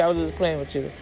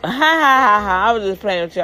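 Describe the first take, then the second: First: Said in the usual way. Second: Laughing it off, quick and high; mocking laugh. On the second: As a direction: brush it off with a fake teasing laugh. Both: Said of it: "Then he gonna laugh".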